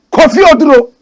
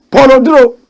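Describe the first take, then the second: First: Kofi said high and loud as the fix; corrected name. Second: Said in the usual way. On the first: Real, not acted. Correcting himself to viewers, stressing Kofi. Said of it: "Not Paul Oduro". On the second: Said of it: "did I say Paul Oduro".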